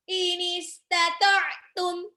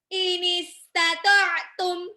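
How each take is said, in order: No difference in how they are said.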